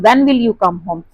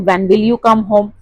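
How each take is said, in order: First: Extra pressure on WHEN; slow question with WHEN stressed. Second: Falling tone towards HOME; slow question, letting "home" drop; wh-question that settles down on HOME. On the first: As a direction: lean on "When", then fall away to "home". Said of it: "when पे ज्यादा pressure दिया जाता है". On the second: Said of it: "questions have a falling tone at the end". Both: Shown as a demonstration.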